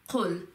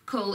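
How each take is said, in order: First: The first sound comes deep from the throat. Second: The first sound is a plain front k. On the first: The speaker calls it right. "the calf sound comes from the throat" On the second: The speaker calls it wrong. "it's not just Qul"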